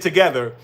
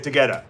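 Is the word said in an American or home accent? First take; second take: American; home. First: It is said in an American accent. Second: It is said in the speaker's home accent.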